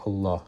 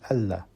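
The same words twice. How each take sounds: First: The L sound is heavy and deep. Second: The L sound is light and thin. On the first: The word is a root word, not derived. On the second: The word is derived from Al-Ilah. "Derivation from Al-Ilah would have been"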